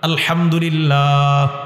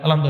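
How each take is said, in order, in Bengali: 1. বাক্যাংশটি ধীরে ও স্পষ্ট উচ্চারণে বলা হয়েছে। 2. বাক্যাংশটি দ্রুত ও জড়ানো উচ্চারণে বলা হয়েছে। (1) "শুদ্ধভাবে" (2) "এ ঠিক না।"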